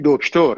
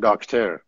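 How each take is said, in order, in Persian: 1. اولین مصوت صدای 'o' است. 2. اولین مصوت صدای 'a' است. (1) "میگیم دکتر" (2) "نمیگیم داکتر"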